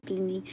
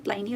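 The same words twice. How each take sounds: First: "Pliny" with first syllable like "plih"; short vowel pronunciation. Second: "Pliny" with first syllable like "ply"; long I pronunciation. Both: Shown as a demonstration. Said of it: "Is it Pliny or Pliny?".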